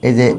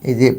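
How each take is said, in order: No difference in how they are said.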